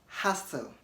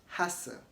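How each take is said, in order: No difference in how they are said.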